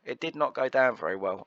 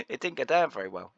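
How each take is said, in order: First: "did not" split apart, each word weighed; stress on did not. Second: Said in the usual way. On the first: Real, not acted.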